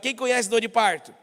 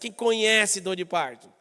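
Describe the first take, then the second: First: The word conhece is said without emphasis. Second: The word conhece is said with strong emphasis.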